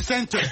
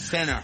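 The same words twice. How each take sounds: First: It is said with a French accent. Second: It is said with an American accent. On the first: "Moi, je dis center" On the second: "Elle dit center"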